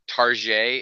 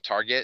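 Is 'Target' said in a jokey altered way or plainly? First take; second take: jokey; plain. First: The word gets a jokey, altered pronunciation. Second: The word gets its ordinary, plain pronunciation. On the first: The speaker calls it wrong. "you know what bothers me is when people say Target" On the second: The speaker calls it right. "instead of Target"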